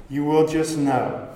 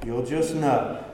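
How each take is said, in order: First: You will just know, pushing on "will" to affirm it; stress on will. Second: Said in the usual way. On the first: Shown as a demonstration. Preacher to congregation, affirming "will" with light stress. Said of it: "Can I tell you that that is true?". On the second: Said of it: "what's the answer that parents always give".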